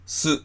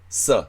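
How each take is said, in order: First: The consonant is followed by an oo vowel. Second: The consonant is followed by an ah vowel. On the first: The speaker calls it wrong. "す、すじゃなくて" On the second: The speaker calls it right. "さっていう風にあをつけます"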